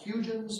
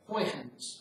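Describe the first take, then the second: First: The name is read as its English spelling suggests. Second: The name is said closest to the Dutch. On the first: The speaker calls it wrong. "it looks like Huygens" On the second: The speaker calls it right. "it's closest to something like Huygens"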